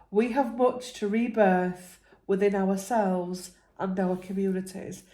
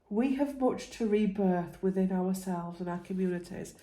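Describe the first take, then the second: First: It is said at a louder volume. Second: It is said at a quieter volume.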